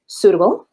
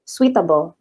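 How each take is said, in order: First: The first part is said as plain soo. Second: The first part is said as soo-wee. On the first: The speaker calls it right. "i-nya dihilangkan saja" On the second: The speaker calls it wrong. "bukan seperti ini ya ... jadi nggak dibaca suwi"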